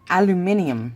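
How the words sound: It has five syllables, said the British way.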